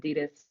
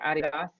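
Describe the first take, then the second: First: It is said the American way. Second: It is said the German way.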